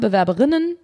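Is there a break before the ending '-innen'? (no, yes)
no. The word flows without a break before -innen. Only the female form is named, next to the male form. "Ich hätte immer, würde immer sagen"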